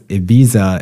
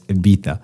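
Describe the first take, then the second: First: The z is pronounced like an English z. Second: The z is pronounced as a th sound. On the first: The speaker calls it wrong. "we've been saying this wrong all along" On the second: The speaker calls it right. "they all pronounce Ibiza as Ibiza"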